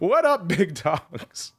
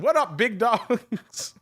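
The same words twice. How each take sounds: First: It is read with a straight, composed voice. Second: It is read while breaking into laughter. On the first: The speaker calls it right. "let me try that again" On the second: The speaker calls it wrong. "I can't read it with a straight face"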